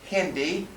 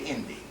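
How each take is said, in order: First: The word begins with an h sound. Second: The word begins without an h sound. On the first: "They don't say Hindi" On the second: "They say Indi. They drop the H's"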